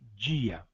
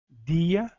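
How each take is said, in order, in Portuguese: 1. Começa com um som parecido com dj, uma africada. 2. Começa com um som de d simples. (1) "unidades como D e Z" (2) "unidades como D e Z"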